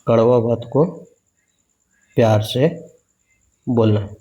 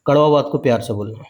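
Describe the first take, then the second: First: Word by word with long pauses, for writing down; dictating to students so they can write it; slow dictation. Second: Said in the usual way. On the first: Shown as a demonstration. Spacing out each chunk for the class to copy. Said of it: "ऐसे लिख सकते".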